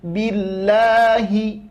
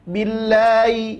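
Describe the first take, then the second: First: The h sound is clearly pronounced. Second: The h sound is blurred and dragged. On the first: The speaker calls it right. "tapi jelaskan billahi" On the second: The speaker calls it wrong. "Jangan a'udzu billahi"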